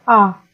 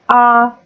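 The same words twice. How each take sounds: First: The pitch falls from high to low. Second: The pitch stays level and flat. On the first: "nada menurun" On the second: "Nada pertama nada datar"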